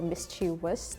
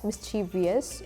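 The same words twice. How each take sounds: First: It has no extra sound before '-ous'. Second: It has an extra 'ee' sound before '-ous'. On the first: "or not" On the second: "whether to add an I"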